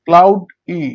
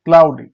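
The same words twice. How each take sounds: First: cloud ই with a gap before ই; loud cloud, then a separate ই; syllable by syllable. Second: Said in the usual way. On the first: Shown as a demonstration. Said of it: "আরেকভাবে ভাগ করা যেতে পারে". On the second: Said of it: "syllable অনুযায়ী ভাগ করি".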